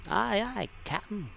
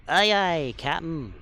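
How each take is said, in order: First: Higher, lighter aye aye; a higher mock-officer answer; high acknowledgment. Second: Loud snappy aye aye; loud crisp acknowledgment. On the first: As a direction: pitch the reply up as a playful echo. Repeating the acknowledgment in role-play. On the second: Pretend. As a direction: bark it out loud like a bridge officer. Acknowledging captain in role-play.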